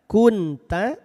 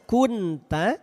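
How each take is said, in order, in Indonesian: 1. Huruf n diucapkan dengan jelas dan singkat. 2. Huruf n diucapkan dengan jelas dan singkat.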